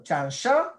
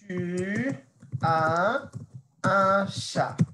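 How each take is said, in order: First: The voice rises at the end. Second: The voice falls at the end. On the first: It asks whether the listener has a cat. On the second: It states that the listener has a cat.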